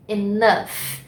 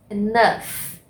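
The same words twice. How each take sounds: First: Enough again as "inâf", stress on the second syllable; pronunciation model repeated. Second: Enough said as "inâf", stress on the second syllable; pronunciation model. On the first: (Enough repetido "inâf") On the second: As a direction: model Enough slowly and clearly. (Enough pronunciado "inâf") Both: Shown as a demonstration. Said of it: "Ó a pronúncia".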